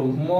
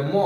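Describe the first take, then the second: First: ম drawn out with its inherent অ, "মঅ"; slow full ম. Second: ম cut short with no অ after it, as হসন্ত; quick clipped ম. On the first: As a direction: say ম slowly, letting the অ sound ring. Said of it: "সময় নিয়ে উচ্চারণ করবো". (ম ধীরে, অ-সহ টেনে উচ্চারণ) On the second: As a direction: snap ম off fast, no vowel. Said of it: "তাড়াতাড়ি উচ্চারণ হবে ম". (ম দ্রুত, হসন্ত দিয়ে অ ছাড়া) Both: Shown as a demonstration.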